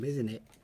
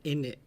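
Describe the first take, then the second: First: Both words are said fully and separately. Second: The words blur together into one short word. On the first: "For those of you that are very proper" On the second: "Or in it"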